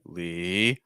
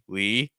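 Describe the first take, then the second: First: The pitch dips down and then rises. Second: The pitch stays level across the word. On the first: The speaker calls it right. "it goes down and it goes up" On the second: The speaker calls it wrong. "instead of just saying Lee"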